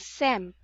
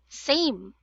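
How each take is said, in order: First: The vowel is a short E sound. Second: The vowel is a long A sound. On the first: The speaker calls it wrong. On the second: The speaker calls it right.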